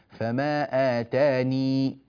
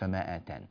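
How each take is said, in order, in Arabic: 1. تنتهي الكلمة الأخيرة بصوت 'ee' الطويل. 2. تنتهي الكلمة الأخيرة بصوت 'n'. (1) "فما آتاني إذا وقف" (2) "مش فما آتان"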